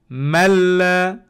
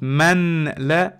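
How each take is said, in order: First: The n merges fully into the l. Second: The n is pronounced clearly before the l. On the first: The speaker calls it right. "You erase the noon completely" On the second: The speaker calls it wrong. "not man la"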